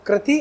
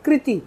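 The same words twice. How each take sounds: First: First कृति as "krati"; wrong pronunciation. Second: Second कृति as "kriti"; correct pronunciation. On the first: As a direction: say कृति with a "kra" vowel. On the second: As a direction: say कृति with a "kri" vowel. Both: Shown as a demonstration. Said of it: "दोनों में अंतर है".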